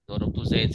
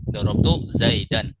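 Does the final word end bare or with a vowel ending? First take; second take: bare; vowel ending. First: The last word ends on a bare consonant. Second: The last word ends with an added -an. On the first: This is how it is said in casual speech. "kalau ngomong saja" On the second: This is the full form used for learning. "untuk belajar ya tidak di, diucapkan harokatnya juga"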